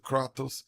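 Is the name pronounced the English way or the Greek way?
Greek. The name is said with a Greek pronunciation. The speaker calls it right. "in Greek you would like pronounce closer to Kratos"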